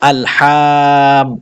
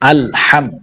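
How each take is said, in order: First: The vowels are stretched out long. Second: The vowels are said short and quick. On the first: The speaker calls it wrong. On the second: The speaker calls it right.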